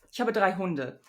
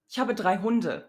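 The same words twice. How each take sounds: First: Relaxed everyday German, r barely rubbed; casual German r. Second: Ich habe drei Hunde, each sound crisp and careful; careful articulate German speech; over-enunciated German. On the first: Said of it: "using the uvular approximant". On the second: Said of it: "over-enunciating". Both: Shown as a demonstration.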